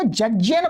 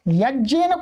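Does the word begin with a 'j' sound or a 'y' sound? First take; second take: j sound; y sound. First: The word begins with a 'j' sound. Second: The word begins with a 'y' sound. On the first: The speaker calls it wrong. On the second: The speaker calls it right.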